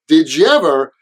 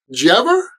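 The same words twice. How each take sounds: First: Each word is said fully and clearly. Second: 'Did' is unstressed and reduced, run together quickly.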